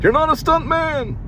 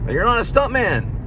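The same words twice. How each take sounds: First: It is said in a put-on comedian-style voice. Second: It is said in the speaker's ordinary voice.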